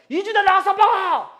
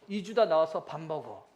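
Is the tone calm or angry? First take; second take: angry; calm. First: It is said in an angry, exasperated tone. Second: It is said in a calm, ordinary tone.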